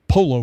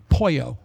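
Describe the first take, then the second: First: The middle consonant is sounded as an L. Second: The middle consonant is sounded as a Y. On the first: The speaker calls it wrong. "I'd like that polo for lunch" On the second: The speaker calls it right. "No, it's Poyo"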